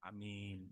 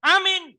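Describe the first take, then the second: First: Very soft, low amen; amin pelan. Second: High, loud congregational amen; teriakan amin. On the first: Shown as a demonstration. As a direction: let the amen drop to a murmur. Deflated amen after shouted one. (amin lirih dan rendah) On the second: Retold or imitated. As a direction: imitate a whole crowd yelling amen. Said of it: "Semua teriak". (meniru jemaat berteriak lantang)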